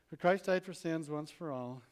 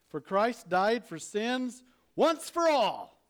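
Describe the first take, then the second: First: It is read plainly, without authority. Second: It is read firmly, with authority. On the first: The speaker calls it wrong. "It's not" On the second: The speaker calls it right. "That's how you need to read that verse"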